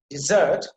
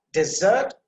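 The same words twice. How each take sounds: First: "desert" with short first vowel, "-sert" punched louder; stress on second syllable. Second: "desert" drawn out slowly, full "de" first; stress on first syllable. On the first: Teacher showing the verb's pronunciation, second syllable stressed. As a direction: hit the "-sert" of "desert" hard. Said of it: "emphasis on the second syllable". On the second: Teacher showing the noun's pronunciation, first syllable stressed. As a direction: stretch "desert", weighting its opening "de". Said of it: "emphasis on the first syllable". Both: Shown as a demonstration.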